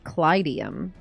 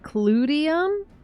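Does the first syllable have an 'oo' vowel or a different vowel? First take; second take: different vowel; oo vowel. First: The first syllable has a different, non-'oo' vowel. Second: The first syllable has an 'oo' vowel. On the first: This is how the speaker expected it to be said. "I thought they'd go with" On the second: This is how the Japanese voice cast says it. "They're saying clue? Like a ooh sound?"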